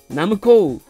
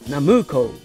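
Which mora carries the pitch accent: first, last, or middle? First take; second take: last; middle. First: The pitch accent falls on the last mora. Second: The pitch accent falls on the middle mora. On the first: "じゃあ最後に後ろ" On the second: "じゃあ真ん中"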